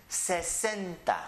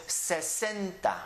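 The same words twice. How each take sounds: No difference in how they are said.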